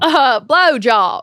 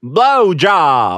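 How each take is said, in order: First: Slow Southern drawl on blowjob; Southern accent. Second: One word in a light Southern drawl; a touch of Southern twang on blowjob; Southern accent. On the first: Cohost answers the Southern accent prompt, drawling. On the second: Southern accent for the podcast game. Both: Pretend. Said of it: "which is Southern".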